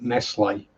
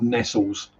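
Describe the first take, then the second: First: The name is said without a final s sound. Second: The name is said with a final s sound. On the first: "I pronounce it Nestle" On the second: "not Nestles"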